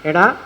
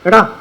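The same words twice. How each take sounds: First: It is said in a warm, affectionate tone. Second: It is said in a harsh, unfriendly tone. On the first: The caller feels fondness. "സ്നേഹത്തോട് വിളിക്കും" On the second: The caller feels annoyance. "ഭാവം മാറി"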